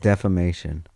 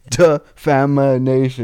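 First: The word has four syllables, without an extra syllable. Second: The word has five syllables, with an extra 'in' syllable. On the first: The speaker calls it right. "I think it is defamation" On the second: The speaker calls it wrong. "You said defamination"

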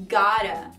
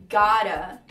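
The two takes are said the same way.

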